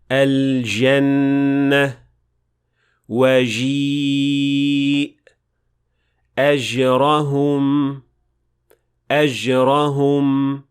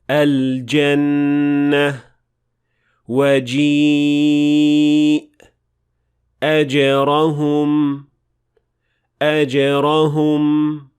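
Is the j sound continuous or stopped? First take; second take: continuous; stopped. First: The j sound is a continuous buzzing fricative. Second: The j sound is stopped without continuous friction. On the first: The speaker calls it wrong. "This mistake sounds like this" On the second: The speaker calls it right. "this is how they are supposed to sound like"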